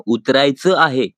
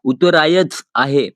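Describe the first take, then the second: First: उतरायचं said with a nasal final vowel, as utraichan; उतरायचं आहे with the nasal ending sounded; correct Marathi pronunciation. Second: उतरायच said slowly with a hard final ch and no nasal; slow, deliberate wrong उतरायच आहे; wrong pronunciation demo. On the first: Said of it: "आपको ये word कहना होगा". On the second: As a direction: drag out उतरायच, ending on a bare ch sound. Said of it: "ऐसे नहीं कहना है guys". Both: Shown as a demonstration.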